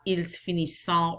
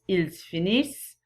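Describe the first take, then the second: First: The final ending of finissent is sounded. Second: The final ending of finissent is silent. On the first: The speaker calls it wrong. "It's not ils finissent" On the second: The speaker calls it right. "It is pronounced ils finissent"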